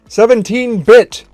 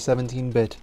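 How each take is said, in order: First: The name is shouted loudly. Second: The name is said at normal volume. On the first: The speaker calls it right. "Capitalization matters" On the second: The speaker calls it wrong. "I mispronounced that"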